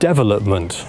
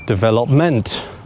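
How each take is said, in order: First: The stress is on the first syllable. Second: The stress is on the fourth syllable. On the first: "put the stressed syllable on the first syllable" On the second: "put it on the fourth syllable"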